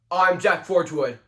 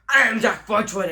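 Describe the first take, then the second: First: A different, less crazy-sounding put-on voice. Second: A strained, crazy-sounding put-on voice. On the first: "Option two is my favorite voice" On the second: "option one, crazy person voice"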